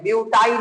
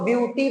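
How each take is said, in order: First: The word ends with an 'eye' sound. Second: The word ends with an 'ee' sound. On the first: The speaker calls it wrong. "ब्यूटाई नहीं पढ़ेंगे" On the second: The speaker calls it right. "इसको ब्यूटी पढ़ेंगे"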